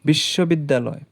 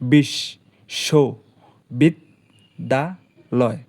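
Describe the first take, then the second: First: The word is said smoothly as one unit. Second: The word is split with pauses between syllables.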